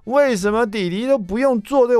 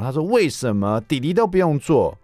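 First: Put-on very high, stretched-out kid whine on 为什么弟弟都不用做这个; whiny child. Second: Said in the usual way. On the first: Father imitating son Jason's complaint, high whiny. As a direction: drag out 为什么弟弟都不用做这个 like a sulky kid. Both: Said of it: "我又听到Jason说".

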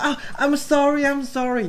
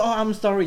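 First: High, mock-sweet English sorry; fake apology. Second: High, sing-song mock sorry; fake apology. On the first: Rude guy mocking the girl he hit, fake sorry. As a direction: ham up an insincere apology. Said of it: "他说". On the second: Rude guy feigning innocence, mock sorry. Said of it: "然后他就说".

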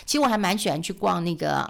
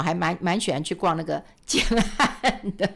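First: Said in the usual way. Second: Laughing. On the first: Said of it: "蛮喜欢去逛那个建案的". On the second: Real, not acted. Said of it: "蛮喜欢去的哈".

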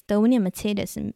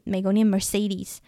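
First: Mercedes said the German way, mehr-TSAY-des style, slowly; German pronunciation. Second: Mercedes said the American way, mer-SAY-deez, slowly; American pronunciation. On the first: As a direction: say Mercedes as Germans do, slow and clear. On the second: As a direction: say Mercedes as Americans do, slow and clear. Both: Shown as a demonstration.

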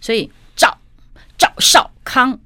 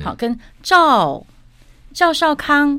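First: 赵少康 said loud, slow, a falling fourth tone on 赵. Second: 赵少康 said high and gentle, 赵 less abrupt; softened tone. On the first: Coach showing the falling tone of 赵少康, slow and loud. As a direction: drop 赵 hard and slow. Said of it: "我们都是四声嘛". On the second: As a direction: ease the fall on 赵少康. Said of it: "这个人可沟通". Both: Shown as a demonstration.

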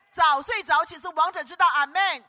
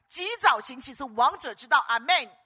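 First: Higher, louder preacher's shout, landing on 道; 道 hit loud at the end of 早睡早起是王者之道; proclaimed motto. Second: Booming preacher's shout, stress on 早; rally the congregation with 及早行起; 早 driven hard and loud, held long; proclaimed motto. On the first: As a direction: cry it out to the whole hall. Motto repeated even higher. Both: Real, not acted.

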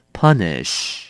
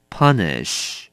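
No difference in how they are said.

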